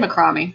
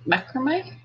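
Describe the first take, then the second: First: It is said the Australian way. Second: It is said the American way.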